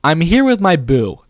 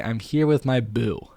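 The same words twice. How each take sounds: First: Slow, high, loud delivery; emphatic, drawn-out showy read; performed script line. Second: Said in the usual way. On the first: Pretend. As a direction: sell it like an expressive video line.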